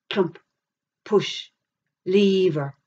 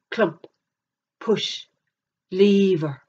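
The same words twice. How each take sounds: The two takes are said the same way.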